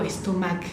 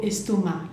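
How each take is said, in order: First: "estomac" with a hard k sound at the end; "estomac" wrongly ending in a spoken k; final C pronounced. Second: "estomac" ending on an open "ma", no k; silent final C. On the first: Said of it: "pero la C no la, no digo". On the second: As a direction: leave the last C of "estomac" unspoken. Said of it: "la C no la pronunciamos". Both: Shown as a demonstration.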